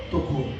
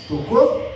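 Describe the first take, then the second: First: TOCOU answered low, soft and falling. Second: TOCOU asked with a rising tone; questioning rise. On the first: Preacher answers his own question, low falling TOCOU. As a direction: drop TOCOU down as a settled answer. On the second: Preacher checks with congregation about the touch, questioning TOCOU. Asks, then answers himself. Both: Shown as a demonstration.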